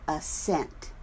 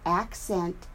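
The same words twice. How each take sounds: First: AsSENT, slow, second syllable stressed. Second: ACcent, slow, first syllable stressed. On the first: Teacher comparing the word pair, assent stressed at the end. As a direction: lean on SENT in assent. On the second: Teacher comparing the word pair, accent stressed up front. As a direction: lean on AC in accent. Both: Shown as a demonstration. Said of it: "emphasis on the different syllables".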